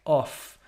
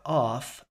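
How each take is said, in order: First: "off" with a short, lightly rounded British o. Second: "off" with an overdone rounded o; "off" said like "awf" with pushed-out lips; imitating her vowel. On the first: Shown as a demonstration. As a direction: demo the British vowel in "off". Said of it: "she should sound like". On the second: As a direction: copy her over-rounded "off". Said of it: "Or off".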